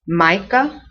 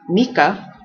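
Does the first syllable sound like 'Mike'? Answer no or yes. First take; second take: yes; no. First: The first syllable sounds like 'Mike'. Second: The first syllable does not sound like 'Mike'. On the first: The speaker calls it right. "Almost as if this is a Y. Mike, Micah" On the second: The speaker calls it wrong. "not Mika"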